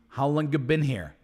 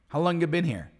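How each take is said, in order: First: The word 'have' is dropped entirely. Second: The same.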